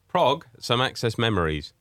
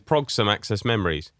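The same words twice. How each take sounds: First: The phrase is said at a normal pace. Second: The phrase is said quickly, run together.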